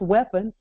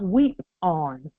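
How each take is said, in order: First: The first part sounds like wep, short vowel. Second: The first part sounds like weep, long vowel. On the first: The speaker calls it wrong. "it's not pronounced weapon" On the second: The speaker calls it right. "it's pronounced weep on"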